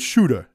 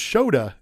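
First: The first vowel sounds like 'oo'. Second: The first vowel sounds like 'oh'. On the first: This is how one wrestler says the name. The speaker calls it wrong. "John Moxley tells everybody it's Shuda" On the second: This is the name's real pronunciation. The speaker calls it right. "That's how you actually pronounce it"

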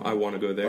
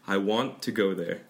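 First: It is said fast, blending into wanna. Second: It is said slowly, with want to separate.

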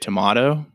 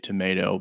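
First: The word is said the British way. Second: The word is said the American way. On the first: "if you're in England, they say tomato" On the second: "most people here say tomato"

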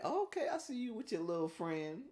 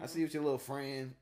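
First: It sounds approving and playfully supportive. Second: It sounds disapproving and suspicious.

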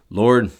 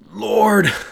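First: The word is said in an offhand, casual way. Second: The word is said with earnest, pleading intensity. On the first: The caller does not really mean it. The speaker calls it wrong. "You're not saying it just" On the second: The caller truly means it. The speaker calls it right. "like you mean it"

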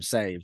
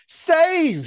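First: The word is said flatly, without extra force. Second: The word is said loudly with dramatic emphasis. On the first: The speaker calls it wrong. "You can't just say" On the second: The speaker calls it right. "You have to say"

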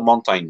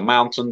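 First: It is said with a Spanish accent. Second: It is said with a standard English accent. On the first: "da mountain diyor" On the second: "mountain demiyor"

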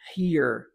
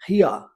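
First: It is said in an American accent. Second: It is said in a British accent.

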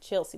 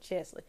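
First: The L sound comes before the S sound. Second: The L sound comes after the S sound. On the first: The speaker calls it wrong. "not Chelsea" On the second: The speaker calls it right. "her name is pronounced Chesley"

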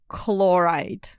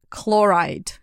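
No difference in how they are said.

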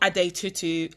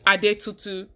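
First: The name is said with an anglicized pronunciation. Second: The name is said with a Nigerian pronunciation. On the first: The speaker calls it wrong. "not Ade Tutu" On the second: The speaker calls it right. "It's Ade Tutu"

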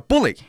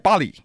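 First: The first syllable sounds like 'bull'. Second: The first syllable sounds like 'bah'. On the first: The speaker calls it right. "英文这个字叫bully" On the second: The speaker calls it wrong. "翻译这个人还把发音发错了，叫他认为这个念bully"

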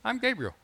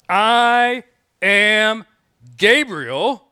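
First: It is said lightly and casually. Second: It is said loudly in a booming voice. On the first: The speaker is just introducing himself. The speaker calls it wrong. "in a lighthearted, conversational, offhanded way" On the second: The listener is being rebuked for doubting. The speaker calls it right. "he spoke with a voice that sounded like thunder"

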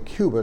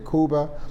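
First: The word is pronounced the common English way. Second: The word is pronounced a less common way. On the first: This is how most people say it. "most people pronounce it in that fashion" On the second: This is the speaker's preferred pronunciation. "I like to say Cuba"

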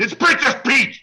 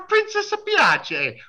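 First: The name is said plainly as the English word 'Peach'. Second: The name is said in a put-on Italian style, like 'Pee-ah-chay'. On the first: It is the proper name of the character. The speaker calls it right. "It's Princess Peach, damn you" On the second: It is a joking, mock-Italian version of the name. The speaker calls it wrong. "I say it like that and my son loses his mind"

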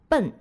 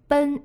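First: The syllable is said with a falling tone. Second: The syllable is said with a level tone. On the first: It means to head toward a destination. "另一个读音就是这里的奔，当表示朝向一个目的地的时候，读第四声" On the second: It means to hurry or rush. "奔是它最常见的读音"

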